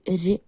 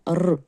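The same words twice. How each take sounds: First: The consonant is said soft, with softening. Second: The consonant is said hard, without softening. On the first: "р м'яко" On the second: "р твердо"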